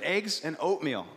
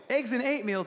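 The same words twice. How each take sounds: First: Said in the usual way. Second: "oatmeal" said as "eight-meal"; childlike, higher, "oatmeal" with an "ay" for the "oh"; toddler mispronunciation. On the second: Retold or imitated. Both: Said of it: "we loved how she said it wrong".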